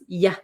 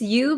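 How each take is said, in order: First: The pronoun has a reduced, weak vowel. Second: The pronoun has a full, clear vowel. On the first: "becomes ya" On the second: "this you"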